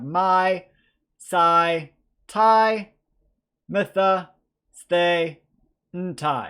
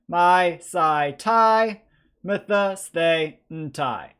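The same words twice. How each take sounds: First: The endings are said at a slow pace. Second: The endings are said at a fast pace.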